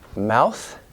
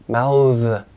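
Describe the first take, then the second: First: The final th sound is voiceless. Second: The final th sound is voiced. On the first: It is used as a noun. "this thing, 명사" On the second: It is used as a verb. "to mouth as a verb"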